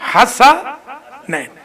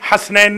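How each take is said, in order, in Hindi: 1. s ध्वनि के बाद एक छोटा स्वर आता है। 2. s ध्वनि के बाद कोई स्वर नहीं आता। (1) "सीन के ऊपर फतह है" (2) "हसनैन नहीं"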